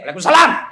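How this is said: It is said in a firm, curt voice.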